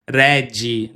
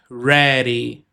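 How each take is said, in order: First: "ready" said with a hard D like "redgy", the Brazilian DJ sound; the typical Brazilian slip on "ready"; wrong hard-D ready. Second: "ready." with a quick tapped D, like "reri"; flapped ready. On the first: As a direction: say "ready" with a Portuguese DJ sound in the middle. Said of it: "Eu não vou pronunciar ready". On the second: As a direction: tap the D in "ready." lightly with the tongue. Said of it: "não, é ready". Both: Shown as a demonstration.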